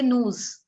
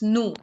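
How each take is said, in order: First: The final s sound is pronounced. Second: The final s sound is silent. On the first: The speaker calls it wrong. "We don't say news" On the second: The speaker calls it right. "It's nu"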